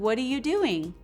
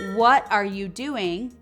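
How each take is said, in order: First: It is said fast, the words run together. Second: It is said slowly and clearly.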